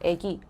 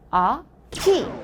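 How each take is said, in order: First: The first vowel is a fronted 'ae'. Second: The first vowel is an open back 'a'. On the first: The tongue moves forward early to save effort. "그래서 애기라고 해버리는 거지" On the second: The tongue moves forward only for the second vowel. "키 이렇게 해야 된다는 얘기지"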